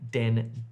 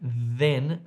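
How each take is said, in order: First: The word starts with a hard d sound. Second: The word starts with a voiced th sound. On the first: The speaker calls it wrong. "then becomes den" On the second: The speaker calls it right. "the voiced then"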